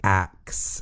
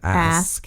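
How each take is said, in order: First: It ends with a 'ks' sound. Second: It ends with an 'sk' sound. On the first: The speaker calls it wrong. "say ax instead of ask" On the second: The speaker calls it right. "instead of ask"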